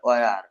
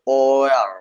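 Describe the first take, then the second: First: The word ends quickly, with a short ending. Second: The word's ending is fuller and drawn out. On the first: "স্বাভাবিক ভাবে।" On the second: "এটাকে আপনি একটু পুর করে বলতে হবে"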